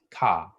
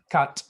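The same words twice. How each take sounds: First: "ka" ending on the open vowel a; open syllable. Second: "kat" ending hard on the t; closed syllable. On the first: Teacher showing the open syllable: "ka" ending on the vowel. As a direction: leave "ka" open with no t after it. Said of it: "it's ka". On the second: Teacher contrasting syllables: "kat" closed off on the t. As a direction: clip the syllable shut as "kat". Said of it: "the syllable isn't kat". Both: Shown as a demonstration.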